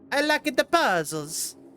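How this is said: It is said in a put-on Italian accent.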